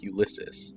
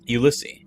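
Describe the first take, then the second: First: The name ends with a pronounced S sound. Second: The name ends without a pronounced S sound. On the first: The speaker calls it wrong. "Garrett says the name English style, pronouncing the final S" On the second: The speaker calls it right. "I correct him"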